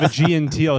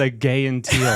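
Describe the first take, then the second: First: The middle sounds like the letter G. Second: The middle sounds like the word gay. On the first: This is the usual way to say the name. The speaker calls it right. "instead of a G and teal" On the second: This is how someone else mispronounced it. The speaker calls it wrong.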